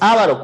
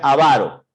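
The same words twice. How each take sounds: First: The stress is on the first syllable. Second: The stress is on the second syllable. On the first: The speaker calls it wrong. "No es avaro, cuidado. Debería tener una tilde" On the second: The speaker calls it right. "Se pronuncia avaro"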